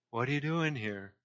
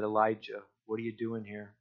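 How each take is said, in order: First: Hushed, softer question from God; quiet voice of the Lord. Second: Very soft, hushed voice of God; still small whisper. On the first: The Lord questioning Elijah in the cave, hushed. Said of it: "the Lord said". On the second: God speaking to Elijah in a still small voice, hushed. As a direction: barely breathe the question. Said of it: "there was a still small whisper". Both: Acted.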